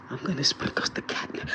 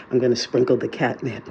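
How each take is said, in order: First: Hushed, unvoiced whisper. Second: Said in the usual way. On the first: Real, not acted. Cat owner announces the catnip experiment, whispering. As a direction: whisper it, barely any voice. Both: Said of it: "I don't know why I'm whispering".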